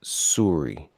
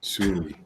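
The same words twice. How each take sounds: First: SORRY drawn to "soo-ree", falling; imitated Canadian sorry. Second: SORRY repeated shorter, "soo-ree"; echoed Canadian sorry. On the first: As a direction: say SORRY with an oo, mimicking. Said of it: "You say". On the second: Retold or imitated. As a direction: echo SORRY briefly with an oo. Repeats the mimicked word.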